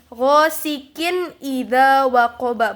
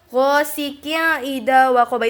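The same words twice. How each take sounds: First: The n sound is pronounced clearly and distinctly. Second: The n sound is nasalized like ng. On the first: The speaker calls it right. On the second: The speaker calls it wrong.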